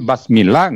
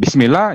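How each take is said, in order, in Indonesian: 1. Suku kata pertama vokalnya 'a'. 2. Suku kata pertama vokalnya 'i'. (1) "Tapi Basmillah nggak Quran lagi" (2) "Bismillah ya Al-Quran"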